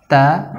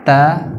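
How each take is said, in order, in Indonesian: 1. Huruf t dilepas dengan sedikit hembusan napas. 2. Huruf t dilepas dengan sedikit hembusan napas.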